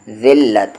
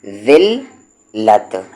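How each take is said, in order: First: ज़िल्लत with a light ज़ and a doubled ल्ल; light z sound. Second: ज़िल्लत drawn out slowly with a light ज़; slow light z demo. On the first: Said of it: "मैं इसे कह रहा हूँ". (ज़िल्लत हल्की ज़ और दोहरी ल्ल के साथ) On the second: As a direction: stretch ज़िल्लत, the ज़ kept light. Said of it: "इसका लाइट वाला आ रहा है". (ज़िल्लत धीरे, हल्की ज़ के साथ) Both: Shown as a demonstration.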